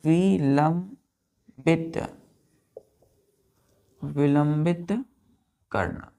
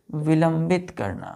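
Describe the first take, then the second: First: विलंबित drawn out very slowly, syllable by syllable; विलंबित spoken very slowly with a rise; slow dictation. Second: Said in the usual way. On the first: Shown as a demonstration. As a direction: stretch विलंबित slowly for students to write.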